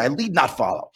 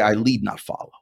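First: It is spoken forcefully with high, pumped-up energy. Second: It is spoken in a plain, even reciting voice. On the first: "But I say it differently. I say it like this" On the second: "I say these words"

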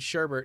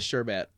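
First: The second syllable has an added R sound. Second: The second syllable has no R sound. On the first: The speaker calls it wrong. "I'm going to keep saying sherbet because I like that" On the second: The speaker calls it right. "it has no R in it"

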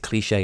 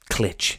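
First: The word ends in an 'ay' sound. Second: The word ends in a consonant sound. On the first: The speaker calls it right. "pronounce it Cliche" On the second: The speaker calls it wrong. "and not Clitch"

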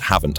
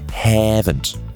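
First: It is said with a standard English vowel. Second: It is said with an E-like dialect vowel. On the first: "the word haven't" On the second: "just with an E instead of an A"

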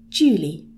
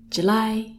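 First: The stress is on the first syllable. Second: The stress is on the second syllable. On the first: It names a girl. The speaker calls it wrong. "if we put the stress at the beginning, it would sound like the girl's name" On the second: It names the month. The speaker calls it right. "we put the stress on the li"

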